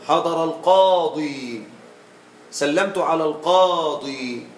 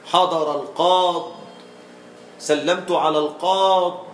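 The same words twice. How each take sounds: First: Slow demo, stretching the final yaa of "القاضي"; pausal, yaa kept. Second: Long aa then stop on the consonant in "القاض"; slow demo cutting the final vowel off "القاض"; pausal, yaa dropped. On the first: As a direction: end "القاضي" on a long ee. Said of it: "الغالب بإثبات الياء". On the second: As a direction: end "القاض" on a bare Dad, no ee. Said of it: "بحذف الياء". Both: Shown as a demonstration.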